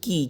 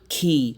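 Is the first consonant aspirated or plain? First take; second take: plain; aspirated. First: The k sound is plain, without a puff. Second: The k sound is aspirated, with a puff. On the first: The speaker calls it wrong. "আসলে কি না" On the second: The speaker calls it right. "কি হবে?"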